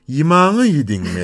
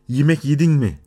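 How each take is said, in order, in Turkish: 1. İlk e i'ye, son e ise a'ya dönüşüyor. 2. Ünlüler standart Türkçedeki e sesleriyle söyleniyor. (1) "yimağı yedin mi dediğimiz zaman onun ağlaştığını görüyoruz" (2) "yemek yedin mi diyoruz belki"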